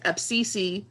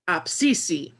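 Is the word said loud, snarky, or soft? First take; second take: snarky; loud. First: It is said with a snarky tone. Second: It is said firmly and loudly. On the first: It tells someone the speaker is talking now. "If you say it a little snarky" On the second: It calls everyone to attention. "it's kind of like a call to attention"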